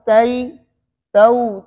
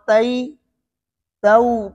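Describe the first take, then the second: Both takes have the same delivery.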